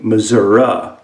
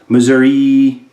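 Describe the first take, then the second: First: The word does not end with 'ee'. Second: The word ends with an 'ee' sound.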